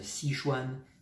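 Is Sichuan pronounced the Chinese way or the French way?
French. It is said the French way, without tones. "qui pour les Français qui ne parlent pas le chinois, prononce Sichuan"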